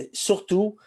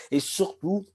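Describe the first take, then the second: First: Said in the usual way. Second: Real catch in the throat, pitch jumping up; frog in throat. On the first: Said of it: "vous m'excuserez". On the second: Real, not acted. Presenter opening a masterclass, frog in the throat. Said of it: "j'ai un chat dans la gorge".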